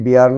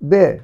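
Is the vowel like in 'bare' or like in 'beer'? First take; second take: beer; bare. First: The vowel glides 'ee-ah', as in beer. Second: The vowel is a plain 'eh', as in bare. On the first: The speaker calls it wrong. "এটি বিয়ার নয়" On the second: The speaker calls it right.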